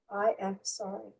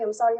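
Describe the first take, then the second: First: The phrase is said slowly and deliberately. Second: The phrase is said quickly and lightly. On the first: The words are said from deep inside. The speaker calls it right. "When you say it like slowly" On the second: The words are said only from the outside. The speaker calls it wrong. "it's just going in the air"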